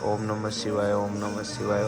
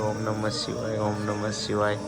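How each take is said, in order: The two takes are said the same way.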